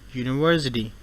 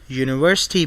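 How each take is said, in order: First: The T is a soft, quick tap. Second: The T is a crisp, hard T.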